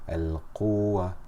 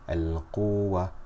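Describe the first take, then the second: First: The vowel before the waw is stretched long. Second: The vowel before the waw is stretched long.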